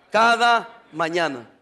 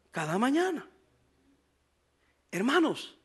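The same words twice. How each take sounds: First: "cada mañana" drawn out slowly, with weight on "cada"; slow emphasis. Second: "cada mañana" repeated much softer, almost to himself. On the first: Pastor reading the verse aloud, slowly pressing "cada mañana". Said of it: "Enfatizo la palabra". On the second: Pastor repeating the verse words to the congregation, softly. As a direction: let "cada mañana" fall quietly. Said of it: "Y dice cómo la traían". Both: Shown as a demonstration.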